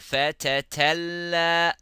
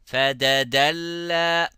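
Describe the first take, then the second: First: Both middle consonants are t sounds. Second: Both middle consonants are d sounds. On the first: "or fatatalla" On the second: "be careful not to say fadadalla"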